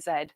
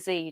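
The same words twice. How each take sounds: First: The letter is said the non-American way. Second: The letter is said the American way. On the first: "They don't say Z" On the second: "Americans say Z"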